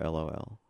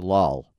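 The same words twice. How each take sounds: First: It is said as three separate letters. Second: It is said as a single word.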